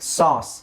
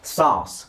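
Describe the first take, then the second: First: The vowel sounds like an open 'ah'. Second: The vowel sounds like an open 'ah'.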